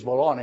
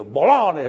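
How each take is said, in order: First: Said in the usual way. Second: BOLOGNA louder, as it boomed on the radio; big, retold yell. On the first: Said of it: "I yelled like this". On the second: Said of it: "big, you know".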